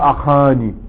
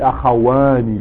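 First: It is said without a w sound. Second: It is said with a w sound. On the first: The speaker calls it wrong. "Tu dis pas أخاني" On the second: The speaker calls it right. "tu dis أخواني. Le واو revient"

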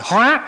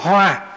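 First: The word is said on a high rising tone. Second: The word is said on a level tone. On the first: Transformation. "từ dấu sắc" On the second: A flower. "chữ H rồi chữ O"

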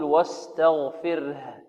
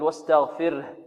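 First: The final h sound is clearly audible. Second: The final h sound is barely audible. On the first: The speaker calls it right. "أن نوضحها في القراءة، نقول" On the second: The speaker calls it wrong. "بعض الطلاب يقول ... ها خفيفة ربما لا تكاد تبين"

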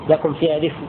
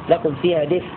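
The two takes are said the same way.

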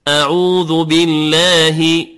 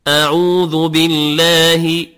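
Both takes have the same delivery.

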